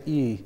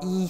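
First: "E" slackened toward a central vowel; lazy, centralized "E", as in sad speech. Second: Said in the usual way. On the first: Shown as a demonstration. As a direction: say "E" with chin and tongue less extreme. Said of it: "you move to more, towards more centralized vowels". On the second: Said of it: "you're more likely to say it as E".

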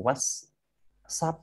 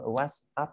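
First: "WhatsApp" run together as wassap; linked sounds. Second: Said in the usual way. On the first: Shown as a demonstration. Teacher showing how the words link, linked-sound demo. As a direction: slide the S into the second syllable of "WhatsApp". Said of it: "nó nối âm thành WhatsApp". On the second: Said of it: "WhatsApp thì nó nối âm thành WhatsApp".

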